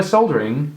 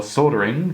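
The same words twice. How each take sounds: First: "soldering" with the L sounded. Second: "soldering" with a silent L; soldering without L. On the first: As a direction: pronounce the L in "soldering": SOL-der-ing. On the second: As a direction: drop the L in "soldering": SODD-er-ing. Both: Shown as a demonstration. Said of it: "depending on how you call it".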